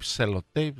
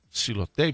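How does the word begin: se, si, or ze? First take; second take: se; si. First: The word begins with the syllable 'se'. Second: The word begins with the syllable 'si'. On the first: "Εσύ το λες σελοτέιπ κάπως" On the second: "εγώ το λέω σιλοτέιπ"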